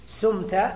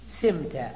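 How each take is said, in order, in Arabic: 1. الحركة الأولى هي صوت 'u' مدوّر. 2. الحركة الأولى هي صوت 'i' أمامي. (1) "بضم السين" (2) "لماذا اقتصرنا على الكسر؟"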